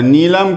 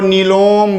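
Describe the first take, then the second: First: The second vowel is a short a sound. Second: The second vowel is a rounded o sound. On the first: This is the standard Hindi way it is said. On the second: This is how Bengali speakers say it.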